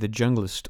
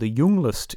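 First: The name is said in a plain English way. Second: The name is said in a Scandinavian way.

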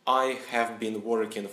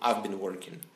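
First: I and have are said as two full words. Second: I and have are merged into one syllable. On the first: The speaker calls it wrong. "Вместо того, чтобы сказать" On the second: The speaker calls it right. "я скажу I've been working"

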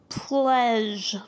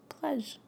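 First: Every sound in the word is clearly articulated. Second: The word is said quickly without sounding everything out. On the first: The speaker calls it right. "when you really sound out every sound in the word" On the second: The speaker calls it wrong. "than if you just go"

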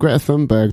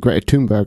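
First: The surname is said the English way. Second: The surname is said the Swedish way. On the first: This is the older, familiar way of saying it. "Suddenly it went from" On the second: This is the newer way people started saying it. "That is the correct pronunciation"

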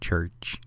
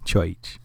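First: The word is said in a plain accent. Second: The word is said in a New Orleans Creole accent. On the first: This is not how the other person said it. "Not church" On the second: This is how the other person said it. "I just like the way he said church"

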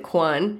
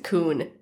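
First: The name is said like 'kwan'. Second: The name is said like 'koon'. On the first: The speaker calls it wrong. "It's not the Quan" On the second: The speaker calls it right. "it's a Coon"

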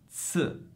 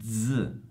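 First: The z is a voiceless ts sound. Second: The z is a voiced dz sound. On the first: "La Z sorda ha il suono di TS" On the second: "la Z sonora, il cui suono è DZ"

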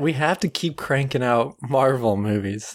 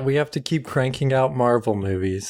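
First: It is said with high energy. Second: It is said with low energy.

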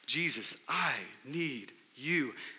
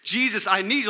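First: It is said at normal loudness. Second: It is cried out more loudly.

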